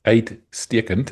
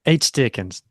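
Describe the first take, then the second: First: Uitstekend drawn out very slowly, rising at the end; slow Afrikaans demo. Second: Uitstekend said once in one even, plain go; learner repeats word. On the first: Presenting viewer's tongue twister, very slow careful pronunciation. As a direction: spell out uitstekend slowly for the learner. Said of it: "it's a nice tongue twister". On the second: Co-host repeats the Afrikaans word back, plain attempt. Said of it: "that was way too easy". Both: Shown as a demonstration.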